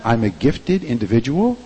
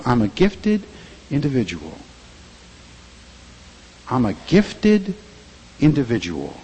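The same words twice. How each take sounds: First: Said in the usual way. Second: I'm a gifted individual said slow, weight on gifted; gifted leaned on, slow and deliberate; slow affirmation. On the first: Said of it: "Can you say that?". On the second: Shown as a demonstration. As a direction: model the confession slowly for the church to repeat. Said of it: "say it".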